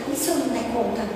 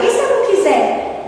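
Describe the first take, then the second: First: Soft, low, humble worry; humble question. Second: High, scoffing whine; mocking question. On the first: Retold or imitated. Kardec humbly asks the spirits what if he fails, softly. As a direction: ask it with real humility. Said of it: "Não, ele pergunta". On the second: Speaker contrasts the mocking question with the humble one, scoffing. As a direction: sneer it like a lazy refusal. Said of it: "A pergunta debochada".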